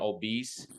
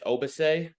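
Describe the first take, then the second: First: The name sounds like the English word obese. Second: The name ends in a 'bah-say' sound. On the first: The speaker calls it wrong. "you want to call him obese" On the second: The speaker calls it right. "but it's Obase, I believe is how you say it correctly"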